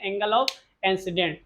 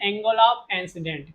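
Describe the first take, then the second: First: शब्द अलग-अलग, धीरे से बोलना; हर शब्द साफ़ और धीमे से दोहराना; slow recap. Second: Said in the usual way. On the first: Shown as a demonstration. (छात्रों के लिए शब्द धीमे दोहराते हुए) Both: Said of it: "क्या कहते हैं?".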